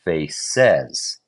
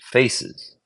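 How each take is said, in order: First: The stress is on the second syllable. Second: The stress is on the first syllable. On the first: The speaker calls it wrong. "the second syllable is stress" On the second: The speaker calls it right. "Stress goes on the first syllable"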